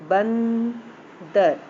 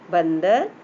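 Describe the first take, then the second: First: बंदर with the first syllable's nasal drawn right out; nasal sound demonstrated. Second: Said in the usual way. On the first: Shown as a demonstration. Teacher shows children the nasal anusvar, drawn-out nasal demonstration. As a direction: stretch बंदर very slowly, humming the n through the nose. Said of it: "ये नाक से उच्चारण हो रहा है".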